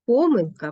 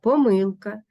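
First: Помилка as ПОмилка, high on ПО; stress on first syllable. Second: Помилка as поМИЛка; stress on second syllable. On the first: Teacher showing double stress, помилка stressed on ПО. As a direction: open hard on ПО in помилка. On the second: Teacher showing double stress, помилка stressed on МИЛ. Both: Shown as a demonstration. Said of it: "мають подвійний наголос".

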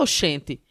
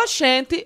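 First: Said in the usual way. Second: Put-on caricatured soap-opera Northeastern accent, higher pitched; imitation Northeastern accent. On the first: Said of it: "A gente não fala". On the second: Comedian mocking people who imitate Northeasterners, caricatured Northeastern accent. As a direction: mimic outsiders overdoing a Northeastern accent. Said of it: "quando vai imitar o nordestino".

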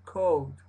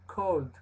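First: "cold" said without the L, like co'd; "cold" with the L swallowed; L dropped. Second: "cold" with a clear L before the d; "cold" with the L fully pronounced; L sounded. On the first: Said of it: "En unas dicen nomás cold". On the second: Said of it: "En unas suena la L". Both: Shown as a demonstration.

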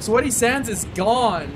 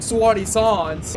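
First: Said in the usual way. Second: "Sweaty Sands" drawn out as "Swahty Sahns"; mock-fancy "Sahns" for "Sands"; playful mispronunciation. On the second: Shown as a demonstration. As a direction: say "Sweaty Sands" slowly with broad "ah" vowels. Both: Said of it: "Or should I say".

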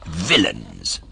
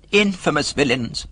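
First: Low, dark fox exclamation; fox's deep-pitched condemnation; indignant fox. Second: High-pitched cat exclamation; cat's higher, theatrical condemnation; echoing indignant cat. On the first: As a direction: drop the pitch and pronounce it with mild outrage. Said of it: "said the fox". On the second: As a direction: lift the voice and echo the outrage. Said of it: "repeated the cat". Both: A narrator's reading.

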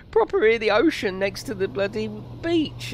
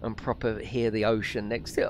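First: Higher, wistful "Proper hear the ocean" as if choking up; mock emotional. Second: Said in the usual way. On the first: Streamer pining for a beach holiday in lockdown, mock emotional. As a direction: let "Proper hear the ocean" swell with hammed-up longing. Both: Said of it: "I'm starting to get emotional".

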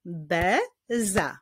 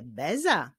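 First: "Beza" as be, pause, za; two spaced beats in "Beza"; syllable by syllable. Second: Said in the usual way. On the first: Shown as a demonstration. Teacher clapping with pupils, "Beza" split into syllables. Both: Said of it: "wyklaszczmy sylaby w wyrazie beza".

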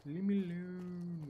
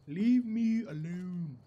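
First: Slow, stretched, at normal volume. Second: Loud, slow, stretched words; drawn-out plea. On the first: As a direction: drag out "Leave me alone" without pushing it. Repeats it more quietly. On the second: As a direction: stretch out "Leave me alone" loudly. Playfully telling pursuer off. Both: Real, not acted.

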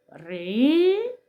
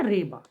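First: Ри-ба with Ри drawn out, rising, then ба apart; slow syllables. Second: Said in the usual way. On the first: Shown as a demonstration. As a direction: slowly stretch each vowel of Ри-ба. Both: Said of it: "Промовляємо повільно".

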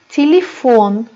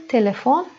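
First: Telefon said ti-li-FON, unstressed e as i; Russian telefon with i-like first vowels; Russian pronunciation. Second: Telefon with a clear e in both first syllables; Turkish-style telefon, plain e vowels; Turkish pronunciation. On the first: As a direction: stretch the stressed last syllable of telefon, Russian style. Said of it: "Rusça i, vurgusuz y'ler i gibi okunuyor". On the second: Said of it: "Türkçe telefon". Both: Shown as a demonstration.

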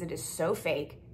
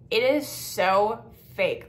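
First: Said in the usual way. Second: Slow, louder, fed-up emphasis; drawn-out disgust. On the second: Real, not acted. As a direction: drag out every word in contempt.

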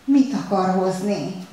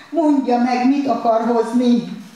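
First: Slow, breathless pleading question; panting plea. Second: Louder, higher, slow desperate shout; anguished shouted demand; desperate cry. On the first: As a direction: ask it gasping, almost begging. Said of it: "zihált könyörgőn". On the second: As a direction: cry out at the waiter. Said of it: "kiáltotta esente Kelemen". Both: A narrator's reading.

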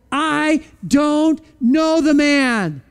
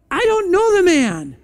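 First: Each word dragged out slowly, a touch defiant; slow sworn denial. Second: Denial with oath. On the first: Peter swearing he never knew Jesus, slow and dragged out. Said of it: "started to curse and swear with an oath". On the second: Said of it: "he denied it with an oath". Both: Acted.

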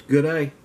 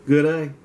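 The two takes are said the same way.

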